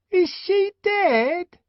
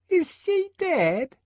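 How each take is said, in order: First: High, louder, slow pestering question; the twin pestering the savage again, louder; insistent twin. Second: Put-on high, slow child's question; the inquisitive twin asking the savage, high and slow; curious twin. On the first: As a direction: press him again, louder. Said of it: "repeated the inquisitive twin". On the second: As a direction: ask innocently. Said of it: "he asked". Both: A narrator's reading.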